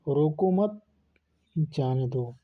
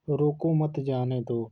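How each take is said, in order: First: "रोको मत" rising, long pause, then "जाने दो" falling; pause after मत. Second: Said in the usual way. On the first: Shown as a demonstration. Teacher showing how a moved comma changes meaning, pausing after "मत". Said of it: "विराम लग गया". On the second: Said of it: "जैसे में".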